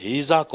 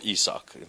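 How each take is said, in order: First: Isaac with an h sound in front; hard breathing. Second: Isaac with no h in front; soft breathing. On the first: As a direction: say "Isaac" as HEE-zak. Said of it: "it's not hard, it, it's soft". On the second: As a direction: say "Isaac" as EE-sak. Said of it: "No, it's Isaac". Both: Shown as a demonstration.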